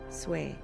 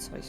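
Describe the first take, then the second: First: The vowel is an 'ay' sound. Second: The vowel is an 'oy' sound. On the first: The speaker calls it right. "it's an eh sound, isn't it? Sway" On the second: The speaker calls it wrong. "Not soy"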